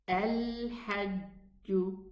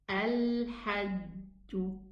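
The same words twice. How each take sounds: First: The jim sounds like a soft j, classical style. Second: The jim sounds like a soft j, classical style.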